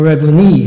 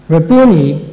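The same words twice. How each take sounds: First: "Rabboni" with the accent on the final syllable; last-syllable accent. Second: "Rabboni" stressed on the middle syllable, BOO. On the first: Preacher giving the alternative, "Rabboni" accented on the last syllable. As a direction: say "Rabboni" as ra-boo-NI, landing on the end. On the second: Preacher giving the first variant, "Rabboni" stressed on BOO. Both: Shown as a demonstration. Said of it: "the accent on the last syllable".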